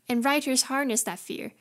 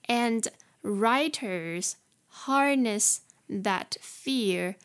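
First: It is read at a normal speed. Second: It is read a little more slowly.

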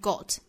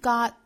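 First: The word is said in a British accent. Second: The word is said in an American accent. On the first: "英音呢是 got" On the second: "美音是 got"

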